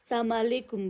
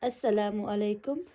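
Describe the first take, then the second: First: The greeting is squeezed into one short clipped word. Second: The greeting is said in full with every syllable. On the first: The speaker calls it wrong. "कोई सलामकुम बोलता है जो कि बिल्कुल गलत है" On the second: The speaker calls it right. "So the actual pronunciation is"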